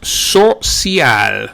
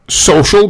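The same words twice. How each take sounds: First: It is said with Spanish sounds. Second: It is said with English sounds.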